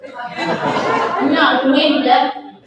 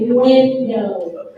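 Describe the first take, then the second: First: Loud, drawn-out Southern "window", like "winda"; hammed-up Southern "window" with an "uh" ending; Southern pronunciation. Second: "window" slowly, with a full "oh" ending; broadcast-correct "window", both syllables drawn out; careful pronunciation. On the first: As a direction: exaggerate the Southern drawl on "window". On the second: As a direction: enunciate "window" as "win-doe". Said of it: "I had to learn how to say window". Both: Shown as a demonstration.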